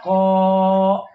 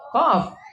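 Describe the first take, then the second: First: The word ends on a vowel without f. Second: The word ends with a clear f sound. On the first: The speaker calls it wrong. "tidak dibaca Qof tapi dibaca Ko" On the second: The speaker calls it right. "Padahal itu dibacanya Qof"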